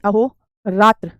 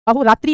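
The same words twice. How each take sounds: First: अहोरात्र drawn out slowly, ending in "tra"; अहोरात्र slow, with no final i; correct ending without i. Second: अहोरात्रि ending in "tri"; अहोरात्रि with an added final ee; wrong i ending. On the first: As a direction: say अहोरात्र very slowly as "aho... raatr". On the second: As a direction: say अहोरात्रि as "aho-raatree". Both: Shown as a demonstration. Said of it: "अहोरात्रि नहीं".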